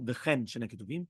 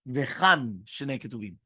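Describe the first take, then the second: First: Vechen said with an eh vowel; Vechen, eh as in bed, the version to avoid; wrong reading. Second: Vechan said with an open ah vowel, slowly; Vechan, ah as in father, each word drawn out; correct reading. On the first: Teacher showing students the wrong reading: Vechen with eh. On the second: Teacher showing students the right reading: Vechan with an open ah. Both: Shown as a demonstration. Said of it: "not Vechen Shnei Ketuvim".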